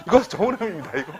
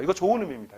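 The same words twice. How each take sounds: First: 이거 좋은 의미입니다 said laughing, higher and louder. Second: Said in the usual way. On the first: Real, not acted. Lecturer repeats to the audience that it is meant kindly, laughing. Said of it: "일부러 써는 거예요".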